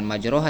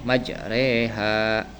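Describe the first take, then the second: First: The vowel after r is a plain open a/o. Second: The vowel after r is tilted toward e. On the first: The speaker calls it wrong. "bukan majroha" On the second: The speaker calls it right. "dibacanya majreha bukan majroha tapi majreha"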